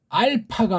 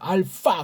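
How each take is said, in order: First: The p is firm and grounded. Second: The consonant is an f sound. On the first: "알파가 아니고" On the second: "서양 애들이 이걸 F 사운드를 해서"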